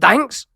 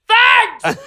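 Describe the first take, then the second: First: It is said as a rising question. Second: It is said as a loud exclamation.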